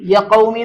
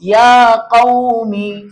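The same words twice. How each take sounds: First: The vowel in ya is short. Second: The vowel in ya is long. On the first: The speaker calls it wrong. "എന്ന് വായിക്കരുത്" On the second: The speaker calls it right. "നീട്ട് ഫത്ഹ് വന്നാൽ നീട്ടണം"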